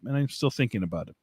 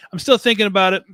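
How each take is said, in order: First: Said in the usual way. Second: Higher and louder, leaning on still; emphatic repeat. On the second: Shown as a demonstration. To viewers about the two copies, an emphatic louder repeat. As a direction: really stress that he still hasn't decided.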